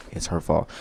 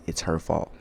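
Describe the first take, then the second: No difference in how they are said.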